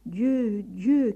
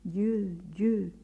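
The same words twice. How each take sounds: First: Raised, louder calls of God's name; crying out. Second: Echo. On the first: François cries out to God in the mountains. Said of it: "cria-t-il". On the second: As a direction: let the mountain answer back. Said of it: "répétèrent par trois fois en écho". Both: A narrator's reading.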